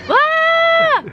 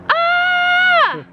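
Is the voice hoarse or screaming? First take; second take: screaming; screaming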